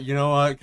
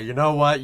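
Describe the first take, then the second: First: You know WHAT, hitting what; stress on what. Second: You KNOW what, hitting know; stress on know. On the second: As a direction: lean on the word know. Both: Shown as a demonstration.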